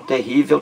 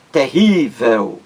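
First: Said in the usual way. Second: "Terrível" devagar, com o RÍ esticado, terríííível; ênfase na penúltima sílaba. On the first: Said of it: "leva acento gráfico". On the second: Shown as a demonstration. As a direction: alongue o RÍ de "Terrível". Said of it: "palavra paroxítona". ("Terrível" lento, segurando a sílaba tônica)

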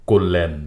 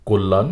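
First: কল্যাণ said "kollen", second vowel e; variant with e. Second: কল্যাণ said "kollan", second vowel a; variant with a. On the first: Teacher repeating the second accepted variant, "kollen". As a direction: end কল্যাণ on -len. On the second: Teacher repeating the first accepted variant, "kollan". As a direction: end কল্যাণ on -lan. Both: Shown as a demonstration. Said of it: "দুটি উচ্চারণেই সঠিক".

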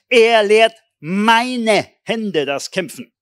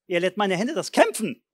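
First: Slow, loud and higher, stretched out; a preacher thundering a favourite verse; proclaiming the psalm. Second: Said in the usual way. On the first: Shown as a demonstration. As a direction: declaim it like a battle cry. Reciting psalm with force.

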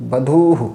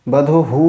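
First: "বধূহু" with long dhuu, quick short hu; short final hu. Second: "বধূহু" with the last hu stretched long; overlong final hu. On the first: Teacher corrects the mistake, short visarga demonstration. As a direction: keep the last hu of "বধূহু" short. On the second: Teacher shows students the mistake, lengthened ending. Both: Shown as a demonstration. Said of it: "বধূহু না".

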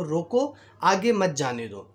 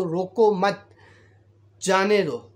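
First: "रोको" set apart as a command, then "आगे मत जाने दो" run together; pause after रोको. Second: "रोको मत" as one phrase, long pause, then "जाने दो"; group "रोको मत" together loudly, break, then release "जाने दो"; pause after मत. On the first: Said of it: "उसका मकसद ये था कि". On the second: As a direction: break after "मत" so it means don't stop him. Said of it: "constable ये समझा कि". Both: Shown as a demonstration.

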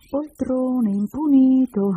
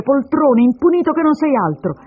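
First: Sung, slow, high teasing singsong; drawn-out childish chant of insults; singing under breath. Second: Loud, high, angry name-calling; hurled insults. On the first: Sung, little girl echoes her mother's insults, teasing singsong. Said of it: "si mise a cantare sottovoce". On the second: Woman insults the man she calls her husband, furious. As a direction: hurl the names at him. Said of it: "a queste ingiurie". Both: Acted.

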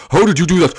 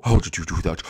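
First: Said in the usual way. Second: Very low, soft question; deep monster voice. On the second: Acted. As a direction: ask it as the giant. Low voiced take of repeated line.

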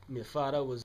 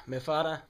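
First: "father" said like "fada", hard t, no r; "father" with a Trinidadian "fada" sound; Trini "father". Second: "father" said with a clear th and an American r; careful "father". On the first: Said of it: "what did you say?". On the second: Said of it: "what is a fada?". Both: Acted.

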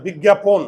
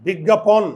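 First: "বিজ্ঞাপন" as big-gya-pon; closed o version. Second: "বিজ্ঞাপন" ending in an open pawn; open-vowel version. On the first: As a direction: correct it to "বিজ্ঞাপন" with a rounded final o. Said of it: "চোয়াল না খুললে ওকার". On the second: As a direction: offer "বিজ্ঞাপন" with aw in the last syllable. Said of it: "না বিজ্ঞাপন?". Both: Shown as a demonstration.

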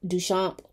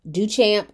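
First: Duchamp said "doo-SHAHMP", soft SH and open A; softer-voiced "doo-shahmp" for Duchamp; French-style pronunciation. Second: Duchamp said "doo-CHAMP", as in champion; English-style "doo-champ" for Duchamp; hard CH pronunciation. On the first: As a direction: say Duchamp with a SH sound. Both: Shown as a demonstration. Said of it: "whatever it is".

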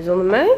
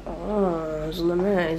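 First: Mock-offended rising question; indignant question. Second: Softer and slow, let down; disappointed. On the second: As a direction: sigh it out, let down. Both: Real, not acted. Partner ate without her.

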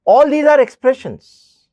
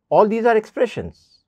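First: "All these are expressions" said louder and slower, leaning on "are"; slow emphatic stress. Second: Said in the usual way. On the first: Shown as a demonstration. Teacher driving home "All these are expressions" to students, slow and loud.

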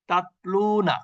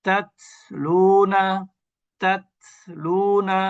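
First: তাতলুনা with the first t held shut, no puff of air; তাতলুনা with a closed, airless t; without hams. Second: তাতলুনা very slow, with a breathy puff on the t; slow তাতলুনা with an audible breath on the t; with hams. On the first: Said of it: "তাহলে এর উচ্চারণটা এভাবে হবে". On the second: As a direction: stretch out তাতলুনা and release the air on the t. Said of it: "যে বাতাসটা বের করে দিলেন". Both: Shown as a demonstration.

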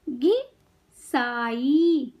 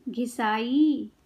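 First: घिसाई very slowly, pause after घि, long साई; syllable by syllable. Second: Said in the usual way. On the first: Shown as a demonstration. Teacher teaching kids to read, syllables apart. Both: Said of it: "शब्द पढ़ना सिखाऊंगी".

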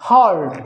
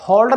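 First: "होल्ड" as h-uh-oo-ld; lower, drawn "होल्ड" with a diphthong; gliding o sound. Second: "होल्ड" with one plain o; "होल्ड" the everyday Hindi way; flat Hindi o. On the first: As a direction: glide the o of "होल्ड" from uh to oo, falling. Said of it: "ये बोला जाएगा". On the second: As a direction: say "होल्ड" without any glide in the o. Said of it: "ये होल्ड नहीं होगा". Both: Shown as a demonstration.

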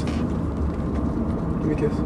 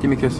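First: Slow, breathy whisper. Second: Said in the usual way. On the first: Acted. Owner coaxing his dog Sasha for a kiss, slow whisper. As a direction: coax a kiss in a slow hush.

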